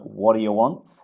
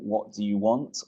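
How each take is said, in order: First: The words are reduced and run together. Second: Each word is pronounced fully and separately.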